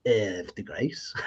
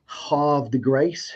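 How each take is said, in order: First: Lower, much softer "Havre de Grace", "Havre" as /ɛv/; third unsure try. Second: "Havre de Grace" slow, with "Havre" as /hɑv/; careful slow "Havre de Grace", first syllable "hahv"; first try at the name. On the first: Host giving up on a viewer's town name, trailing off. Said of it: "I always do terribly at this". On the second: Host attempting a viewer's town name, slow and careful. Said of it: "get me to pronounce where he lives". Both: Shown as a demonstration.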